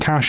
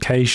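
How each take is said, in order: First: Said in the speaker's usual non-Australian accent. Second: Said with an Australian-sounding vowel. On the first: "instead of saying cash" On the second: "that's the way the Australians say it"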